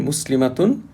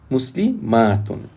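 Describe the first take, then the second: First: The vowel before 'tun' is short. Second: The vowel before 'tun' is long. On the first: "the singular has short a before the ta" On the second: It refers to several female Muslims. "plural form has a long ta"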